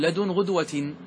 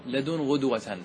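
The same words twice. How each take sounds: First: لدن غدوة with غدوة ending in kasra, as the rule requires; correct genitive form. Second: لدن غدوة with غدوة ending in fatha, the poet's rare accusative; the poet's accusative form. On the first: Teacher to students, giving the correct genitive form. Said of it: "فيقول". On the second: Teacher to students, quoting the poet's rare accusative form. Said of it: "لكن الشاعر قال". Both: Shown as a demonstration.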